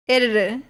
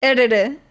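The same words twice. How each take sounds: The two takes are said the same way.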